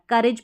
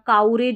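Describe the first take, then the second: First: The first vowel sounds like u in cut. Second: The first vowel sounds like ow in cow. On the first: The speaker calls it right. "करेज पढ़ना है" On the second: The speaker calls it wrong. "काउरेज भी नहीं पढ़ना"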